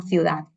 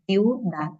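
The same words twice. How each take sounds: First: Said in the usual way. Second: "ciudad" as ciu-dad; two separate syllables. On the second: Shown as a demonstration. Teacher dividing the word, two-syllable "ciudad". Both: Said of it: "dos sílabas".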